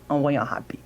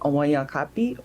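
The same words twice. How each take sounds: First: The middle consonant is a breathy H-like sound. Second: The middle consonant is a hard K sound. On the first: "or like an H sound, which on paper it's a G" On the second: "You can make a K sound"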